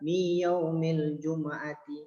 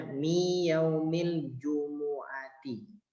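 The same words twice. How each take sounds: First: Mi yaumil jumu'ati with mu read short and closed, sukun; jumu'ati said wrongly, mu without its vowel. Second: Mi yaumil jumu'ati slowly, with mu voiced as domah "u"; jumu'ati said right, slow, full u vowel; correct reading of jumu'ati. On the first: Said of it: "Nah, salah". (jumu'ati dibaca salah dengan sukun) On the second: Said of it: "Pada kalimatnya adalah domah". (jumu'ati dibaca benar dengan domah, pelan) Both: Shown as a demonstration.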